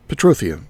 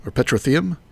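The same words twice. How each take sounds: First: Petrotheum said puh-TRO-thee-um, weak first syllable, falling; trying a pronunciation. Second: Petrotheum said PET-ro-thee-um, first syllable stressed, rising like a question; trying another pronunciation. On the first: Sorting out a mod item's name, stress on TRO. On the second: Second guess at a mod item's name, PET stressed, questioning. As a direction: petrotheum with a full stressed PET, asked uncertainly. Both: Shown as a demonstration. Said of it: "put the emphasis on the wrong syllable".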